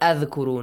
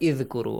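First: The word begins with an a vowel. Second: The word begins with an i vowel. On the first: "not Adhkuru" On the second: "not Idhkuru"

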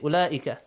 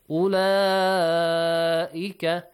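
First: The long vowel is cut short. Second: The long vowel is held for a long time. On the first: The speaker calls it wrong. "You should not say" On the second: The speaker calls it right. "Longer one"

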